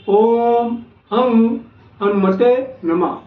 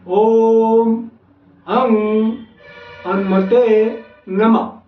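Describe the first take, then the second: First: It is said at normal speed. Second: It is said slowly and deliberately.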